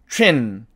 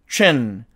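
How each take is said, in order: No difference in how they are said.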